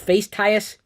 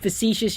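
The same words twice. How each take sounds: First: It is pronounced letter by letter, as spelled. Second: It is pronounced the standard way, fa-SEE-shus. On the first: Searching for it by spelling finds the definition. "you'll find the definition for facetious" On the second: Searching for it by sound would find nothing. "you'd go and Google it like it sounds"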